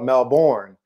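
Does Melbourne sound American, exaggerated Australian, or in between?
American. It sounds like a plain outsider, American-style pronunciation. The speaker would sound obviously foreign. "you can't sound like a honky either and call it"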